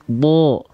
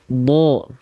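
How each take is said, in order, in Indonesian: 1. Vokalnya bunyi berat yang condong ke o. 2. Vokalnya bunyi berat yang condong ke o.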